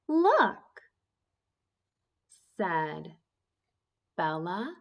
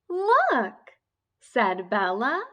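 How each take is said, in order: First: There is a pause after each word. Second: The words flow together without pauses. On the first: The speaker calls it wrong. "I was stopping and I was pausing after each word" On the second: The speaker calls it right. "when I practice reading smoothly"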